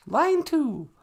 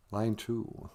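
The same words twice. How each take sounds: First: High falsetto announcement; high-pitched assistant character. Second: Said in the usual way. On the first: Acted. Assistant figure announces the call.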